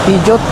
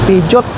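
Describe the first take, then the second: No difference in how they are said.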